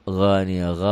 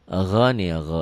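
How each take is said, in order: Both takes have the same delivery.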